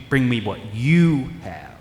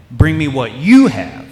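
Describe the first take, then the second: First: "you" leaned on, slower and quieter; slow and soft, stress on you. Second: Emphatic you. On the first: Preacher pressing the point on his congregation, quiet and slow. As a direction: let "you" land softly and slowly. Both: Shown as a demonstration. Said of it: "not the loaves, you".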